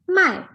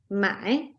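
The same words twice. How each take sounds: First: The syllable is said in the fourth tone. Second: The syllable is said in the third tone. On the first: It means to sell. "But in the fourth tone" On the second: It means to buy. "there is third tone. So it will be pronounced as mai"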